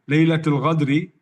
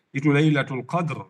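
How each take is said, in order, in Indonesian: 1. Kata terakhir dimulai dengan bunyi ghain. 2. Kata terakhir dimulai dengan bunyi qaf yang dalam. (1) "malamnya malam al-khianah, al-ghadr wal khianah" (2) "Laylatul Qadr itu maksudnya malam yang yang kemuliaannya"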